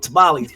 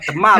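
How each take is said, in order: First: It is said with a plain American English accent. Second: It is said with a Spanish-style accent. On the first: The food is probably not very good. The speaker calls it wrong. "my tamales are whack because I'm calling them tamales" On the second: The food is probably very good. The speaker calls it right. "if somebody showed up, they're like tamales"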